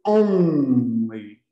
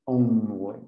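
First: Only said the Portuguese way, a nasal "õ" with the N swallowed in the throat; wrong nasal only. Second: Only with a clear English N made on the roof of the mouth, no nasal vowel; correct English only. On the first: Teacher warning students against the Portuguese-style only. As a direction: say only like a Portuguese speaker would. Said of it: "cedam à tentação de dizer only". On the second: Teacher showing students the right English only. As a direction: say only with the tongue tapping the palate on the N. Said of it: "Tem que ser only". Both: Shown as a demonstration.

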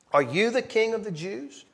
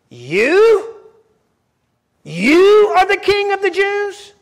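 First: Said in the usual way. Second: YOU thrown up high and loud in disbelief; mocking scornful Pilate, YOU high and slow; incredulous emphasis. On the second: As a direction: stress YOU as if it is absurd. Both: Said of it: "That's the emphasis".

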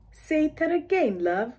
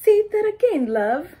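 First: Slow mock British accent, say that again drawn out; patiently asking again as a British local; slower mock British local. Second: High, loud mock British accent on say that again; chirpy local Brit asking you to repeat; imitating a British local. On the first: Local asks a second time, slower mock British accent. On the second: Local asks the newcomer to repeat, mock British accent. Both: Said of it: "then the local tells you".

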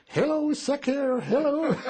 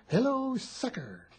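First: Put-on higher, louder, slow boyish shout of hello sucker; French boy shouting to the passing GIs; kid calling out. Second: Slow, higher, spelled-out hello sucker; slow teaching. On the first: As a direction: call it out like a proud little boy, laughing at the end. Kid shouting the taught words. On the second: Shown as a demonstration. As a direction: say each word slowly for the kid to copy. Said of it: "he couldn't say sucker".

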